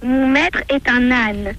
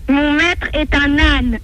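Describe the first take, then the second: First: It is said quietly. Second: It is said loudly.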